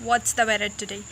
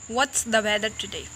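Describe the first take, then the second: The two takes are said the same way.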